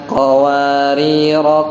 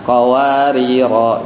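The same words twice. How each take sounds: First: The final vowel is short, flowing on. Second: The final vowel is long, ending the phrase. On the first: The reader continues without stopping. "kalau wasol itu bacanya nggak panjang" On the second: The reader stops at this word. "kalau memang wakof ya qawariro gitu ya"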